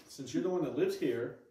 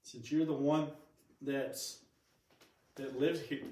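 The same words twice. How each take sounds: First: Said in the usual way. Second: Talking through hiccups. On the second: Real, not acted. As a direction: hiccup interrupting speech. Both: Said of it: "I got the hiccups".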